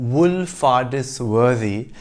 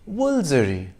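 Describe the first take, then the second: First: The name is said with every written syllable. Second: The name is shortened to two syllables. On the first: The speaker calls it wrong. "looks like it should be pronounced Woolfardisworthy" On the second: The speaker calls it right. "is pronounced Woolsey"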